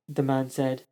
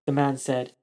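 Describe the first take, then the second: No difference in how they are said.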